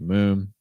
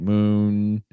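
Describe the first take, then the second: First: The final n sound is kept short. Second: The final n sound is held long. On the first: The speaker calls it right. "it could just be moon" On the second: The speaker calls it wrong. "it doesn't have to be like moon"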